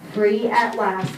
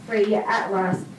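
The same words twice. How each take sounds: The two takes are said the same way.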